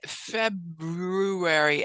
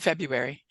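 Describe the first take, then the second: First: The second syllable is slow and drawn out. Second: The second syllable is quick and reduced. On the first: "I would slow down on that second syllable" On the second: "So I just say February"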